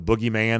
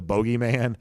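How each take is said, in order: First: Said in the usual way. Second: BOGEYMAN with a long oh in the first syllable; questioner's pronunciation. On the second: Retold or imitated. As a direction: say "bogeyman" as BOH-gee-man. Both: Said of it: "or as the questioner said".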